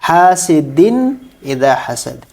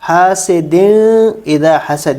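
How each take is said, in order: First: The n sound is pronounced clearly before idha. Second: The n sound is hidden and nasalized before idha. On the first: The speaker calls it right. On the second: The speaker calls it wrong.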